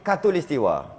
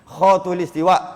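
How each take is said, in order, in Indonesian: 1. Kata ini diawali bunyi k biasa. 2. Kata ini diawali bunyi kh tenggorokan. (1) "dia jadi katulistiwa. Pelat" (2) "dia tak jadi khatulistiwa"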